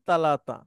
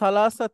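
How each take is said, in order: First: The consonants are t sounds. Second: The consonants are th sounds.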